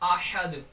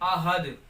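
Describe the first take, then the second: First: The h is a throaty, tight h. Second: The h is a plain, light h. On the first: The speaker calls it right. "बल्कि इसको दुरुस्त पढ़ना है" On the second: The speaker calls it wrong. "ये गलत तरीका है पढ़ने का"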